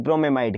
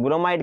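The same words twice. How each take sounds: First: ब्रोमेमाइड with "me" kept in the middle; longer pronunciation. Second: ब्रोमाइड said without the middle "me"; shorter pronunciation. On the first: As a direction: pronounce ब्रोमेमाइड in full, bro-me-maid. (ब्रोमेमाइड को "ब्रो-मे-माइड" बोलें) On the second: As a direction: say ब्रोमाइड as bro-maid, one syllable less. (ब्रोमाइड को बिना "मे" के छोटा बोलें) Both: Shown as a demonstration. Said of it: "जो pronunciation करना हो कर लो".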